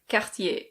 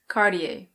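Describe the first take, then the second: First: It is said with a French pronunciation. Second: It is said with an American pronunciation. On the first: "In French, this is pronounced Cartier" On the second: "In American English, it's Cartier"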